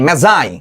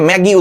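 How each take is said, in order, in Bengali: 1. মাঝের ব্যঞ্জনটি j উচ্চারণ। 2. মাঝের ব্যঞ্জনটি hard g উচ্চারণ।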